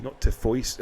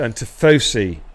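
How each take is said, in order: First: Tifoisi, said tih-FOY-see, imitating a friend; wrong Tifoisi. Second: Tifosi, said tih-FOH-see; Tifosi said right. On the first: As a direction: Tifoisi with an OY sound. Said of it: "that's how Gaza says it". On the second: Shown as a demonstration. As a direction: Tifosi with a plain OH sound. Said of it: "That's how you say it".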